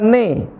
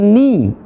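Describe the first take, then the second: First: The vowel sounds like an open 'e'. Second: The vowel sounds like a clear 'i'. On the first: The speaker calls it wrong. "Bukan ne" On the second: The speaker calls it right. "tapi ni. Pakai i"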